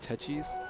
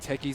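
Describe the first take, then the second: First: The ch is said as a ch sound. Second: The ch is said as a k sound. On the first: The speaker calls it wrong. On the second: The speaker calls it right.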